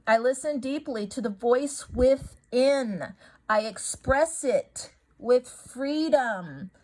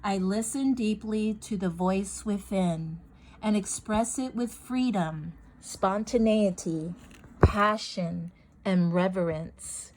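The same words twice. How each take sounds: First: Overdone affirmation. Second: Calm affirmation. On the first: Showing viewers the wrong way to say an affirmation, slow and overdone. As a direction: stretch every word out like a grand pronouncement. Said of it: "And I don't say it like that". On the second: Showing viewers how she really says her affirmation, calmly. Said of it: "I just say it calmly". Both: Shown as a demonstration.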